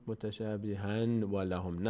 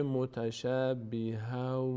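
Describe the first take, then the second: First: Slow "متشابهن و لهم" with clear n; wrong reading. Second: Slow "متشابها" with final a; correct reading. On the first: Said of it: "نه". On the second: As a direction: stretch "متشابها" slowly, no n at the end. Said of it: "نمیگه متشابهن". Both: Shown as a demonstration.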